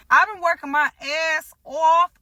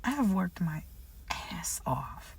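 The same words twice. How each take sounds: First: Higher, louder, proudly declaring; proud outburst. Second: Breathy whisper of effort. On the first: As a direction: belt out how hard you worked. Proud of her hard work. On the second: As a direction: whisper it like a secret. Quiet repeat of her effort. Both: Real, not acted.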